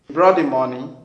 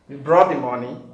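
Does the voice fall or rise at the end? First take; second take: rise; rise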